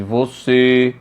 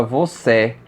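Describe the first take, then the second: First: "você" ending in a closed ê; "você" with a narrow, closed e at the end; closed vowel. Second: "você" mispronounced with an open final é; slow "você" said as vocé, with an open e; open vowel. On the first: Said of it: "possui um timbre fechado". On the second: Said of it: "Se você colocar um acento agudo em você". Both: Shown as a demonstration.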